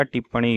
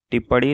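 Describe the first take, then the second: First: Said in the usual way. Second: टिप्पणी with a flapped ड़ for ण; wrong pronunciation. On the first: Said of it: "होता है". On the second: Shown as a demonstration. Teacher shows students the error, टिप्पणी said as tippadi. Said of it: "नहीं होता".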